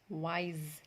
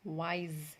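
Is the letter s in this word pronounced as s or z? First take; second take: z; z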